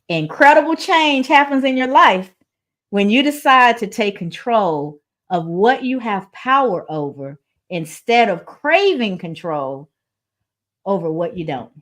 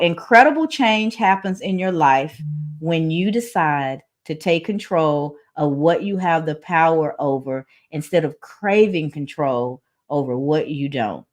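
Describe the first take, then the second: First: It is said more loudly. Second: It is said at normal volume.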